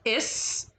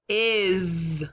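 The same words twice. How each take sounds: First: The word ends with a hissing s sound. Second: The word ends with a buzzing z sound. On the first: The speaker calls it wrong. "we wouldn't pronounce it as" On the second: The speaker calls it right.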